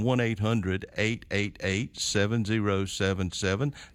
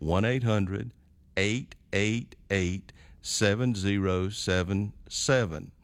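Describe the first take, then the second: First: The number is said at normal speed. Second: The number is said more slowly.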